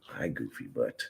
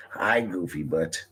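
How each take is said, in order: First: Soft unvoiced whisper to the dog. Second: Said in the usual way. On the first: Real, not acted. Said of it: "talking to dog, whispered". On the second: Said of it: "talking to dog, voiced".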